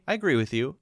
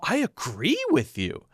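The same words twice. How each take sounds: First: It is said in a plain, neutral way. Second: It is said with strong, emphatic feeling. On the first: The speaker agrees mainly to keep the talk going. "you're agreeing, but it's almost a way to move the conversation forward" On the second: The speaker strongly agrees. "not really strong unless you say it like this"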